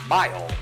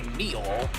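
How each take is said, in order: First: The vowel sounds like 'my'. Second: The vowel sounds like 'mee'. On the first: The speaker calls it right. "prefix of my" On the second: The speaker calls it wrong. "you obviously don't say meal. That would be pretty weird"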